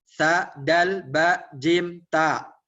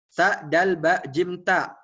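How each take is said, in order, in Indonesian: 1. Hurufnya dibaca dengan tempo lebih cepat. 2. Hurufnya dibaca sangat cepat, sekaligus. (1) "Setelah uh, nampak lancar, tingkatkan kecepatannya" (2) "udah lancar lagi, terus tingkatkan lagi"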